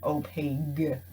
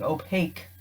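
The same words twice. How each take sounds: First: The word ends with a G sound. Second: The word ends with a K sound. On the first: The speaker calls it wrong. "it doesn't have a G in it" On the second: The speaker calls it right. "like with a K, with a Q sound"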